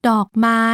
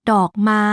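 The two takes are said the same way.

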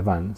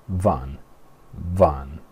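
First: Van said as "ban", with a B; pronunciación incorrecta. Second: Van opening on an F-like V; pronunciación inglesa. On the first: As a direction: say van the Spanish way, B at the start. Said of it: "no se dice van". (van a la española, con B) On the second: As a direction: say van with teeth on lip, not "ban". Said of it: "se dice". (van a la inglesa, con V como F) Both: Shown as a demonstration.

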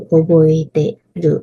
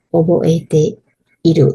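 First: โอโบเอเต รุ without the อิ; contracted spoken form. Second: โอโบเอเต อิรุ with the อิ sounded; full uncontracted form. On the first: Teacher giving learners the casual verb, โอโบเอเต รุ with อิ dropped. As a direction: drop the อิ, saying โอโบเอเต รุ. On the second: Teacher giving learners the full verb, โอโบเอเต อิรุ with อิ sounded. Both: Shown as a demonstration. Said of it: "ตัวอักษรอิออกไป".

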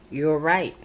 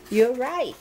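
First: Said in the usual way. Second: Pitched up high with delight; second time, brighter and much higher; excited. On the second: A narrator's reading. Little Bill gleefully agreeing with Bobby, said up high.

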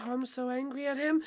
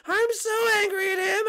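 First: Low, hushed grumble of anger; seething anger. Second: Tearful, worked-up exasperation; whining anger. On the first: Peach grumbling about Mario, low seething anger. Low take, then raised take. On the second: Peach worked up over Mario, wailing anger. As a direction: let the anger rise into a wail. Raised take after low one. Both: Acted.

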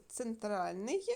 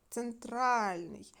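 First: Центральний said as a plain question with a rising end; first take of Центральний; stress check. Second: Центральний drawn out slowly, stress on the А syllable. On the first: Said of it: "чи як ви були". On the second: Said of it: "щоб у нас був наголос". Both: Shown as a demonstration.

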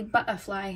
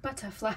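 First: Cockney "butterfly" with the t dropped; Cockney-tinged "butterfly", bu'erfly; Cockney twinge. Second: Said in the usual way. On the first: Shown as a demonstration. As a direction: say "butterfly" the London Cockney way, glottal stop for the tt. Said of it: "a little Cockney twinge to my accent". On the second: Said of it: "instead of butterfly".

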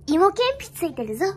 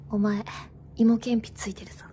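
First: 語尾を上げて知らせる男役の台詞; 普段の高さで軽く男役を演じて; 男の台詞. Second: 低くぼそっと決める男の台詞; 声を落としてイケメン風に告げる. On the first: (軽めの男役) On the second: (低音の男役芝居) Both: Acted. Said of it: "それ男がやるやつじゃない？".

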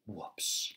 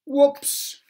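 First: Soft breathy whispered whoops. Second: High, loud startled whoops; loud surprised whoops. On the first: A narrator's reading. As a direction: whisper it as a sheepish aside. Quiet aside after crash. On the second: Acted. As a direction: blurt it out mid-fall. Mister Clumsy falls into pond.

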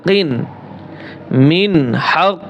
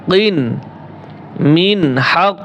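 Both takes have the same delivery.

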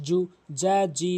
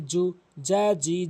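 No difference in how they are said.

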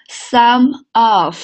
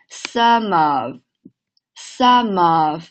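First: "some of" as two separate words, slowly. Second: "some of" run together, the m gliding into "of"; linked words. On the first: Teacher setting up a linking drill, word by word. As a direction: say "some", then "of", each on its own. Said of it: "来，先看连读". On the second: Teacher demonstrating linking to students, words joined. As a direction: link "some of" into one slow unit. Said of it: "连起来". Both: Shown as a demonstration.

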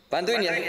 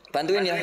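Both takes have the same delivery.

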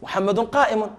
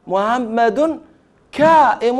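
First: Said in the usual way. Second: Imitating a German saying "محمد كائم" with h for ḥ and k for q; mock a foreigner: "محمد" with a plain h, "كائم" with k; foreign mispronunciation. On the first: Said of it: "فيقول". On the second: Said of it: "الحاء لا ينطقها فيقول موها، يقلبها هاء". (تقليد نطق الأعجمي: "محمد" بهاء و"كائم" بكاف)

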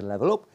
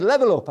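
First: Pupil's echo. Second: Higher-pitched mock instructor order; instructor's command. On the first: Retold or imitated. Pupil repeats instructor's order back, retold obedient echo. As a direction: lower retold echo with rising end. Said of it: "I said". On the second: Instructor orders pupil in the cockpit, retold command. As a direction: call it out as an imitated flying instructor. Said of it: "John said".

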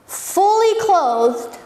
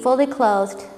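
First: "fully clothed" stretched slowly, higher pitch; slow stress on fully clothed. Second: Said in the usual way. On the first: Shown as a demonstration. Preacher stressing the healed man's state, slow and emphatic. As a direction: lean on "fully" and draw it out. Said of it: "preacher dwells on detail". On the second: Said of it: "repeated plainly".

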